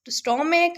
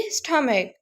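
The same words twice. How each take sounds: First: स्टोमक with a long "o", "STOH-mek"; wrong reading, स्टोमक rounded to "stoh"; common mispronunciation. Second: स्टमक with a short "uh", "STUH-mek"; teacher's model स्टमक, no "o" sound; correct pronunciation. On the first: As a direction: say स्टोमक with "sto" as first syllable. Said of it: "इसको कई लोग pronounce करते होंगे गलत". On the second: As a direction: say स्टमक with "stuh" as first syllable. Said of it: "ये है जी स्टमक". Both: Shown as a demonstration.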